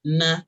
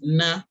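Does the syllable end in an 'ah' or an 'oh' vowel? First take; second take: ah; ah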